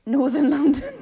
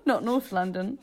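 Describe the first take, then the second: First: "Northern London" high, loud, through laughter; full "Northern". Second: "North London" with "North" as one syllable; clipped-word "North". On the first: Correcting co-host on the accent, "Northern" stressed while laughing. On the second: Ruling out the wrong accent, "North" said as one syllable. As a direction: say "North" in contrast to "Northern", amused. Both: Shown as a demonstration. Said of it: "not, not North London".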